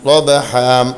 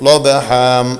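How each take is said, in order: Both takes have the same delivery.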